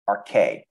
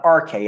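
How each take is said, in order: First: R K with the weight on K; light R, then lean on the K of "R K"; stress on second syllable. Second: R K with the R punched higher and louder; wrong stress on first syllable. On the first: Teacher showing the correct Greek word, second syllable stressed. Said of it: "has the emphasis on the second half". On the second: Teacher showing the wrong stress of a Greek word, first syllable stressed. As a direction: hit the R of "R K", let K drop. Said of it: "emphasis on the second half". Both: Shown as a demonstration.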